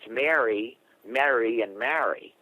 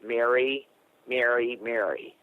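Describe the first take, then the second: First: Each of the three words has a distinct vowel. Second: All three words are pronounced the same way. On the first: The speaker calls it right. "if you're from the East Coast, it's" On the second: The speaker calls it wrong. "they'd pronounce"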